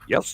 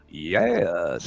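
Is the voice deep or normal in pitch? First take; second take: deep; normal. First: The voice is dropped low and deep. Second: The voice is at its normal pitch. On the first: "then you drop your voice down" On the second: "You side talk over it and you go"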